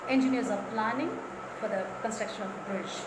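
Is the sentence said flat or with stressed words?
flat. The sentence is said flat, with no stressed words. The speaker calls it wrong. "when they say there is no stress at all"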